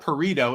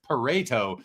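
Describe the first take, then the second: First: The name rhymes with the word burrito. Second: The name does not rhyme with burrito. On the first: "we're saying it wrong. It's not Pareto" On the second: "it's Pareto"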